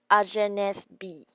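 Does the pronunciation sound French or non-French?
non-French. It is said with a non-French pronunciation. The speaker calls it wrong.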